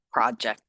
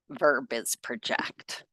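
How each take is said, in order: First: "Project" said as PRO-ject, stress on the first syllable; noun pronunciation. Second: "project" said as pro-JECT, stress on the second syllable; verb pronunciation. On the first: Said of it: "I think, is a noun". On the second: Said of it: "project as a verb". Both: Shown as a demonstration.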